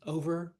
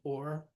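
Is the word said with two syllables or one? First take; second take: two; one. First: The word is said with two syllables. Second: The word is squeezed into one syllable.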